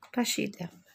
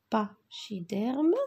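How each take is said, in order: First: Said in the usual way. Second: "pachydermes" drawn out slowly, split after "pa"; sounding out syllables. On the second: Shown as a demonstration. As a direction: say "pachydermes" slowly, pausing after the first syllable, ending on a rise. Teacher sounds word out for accents.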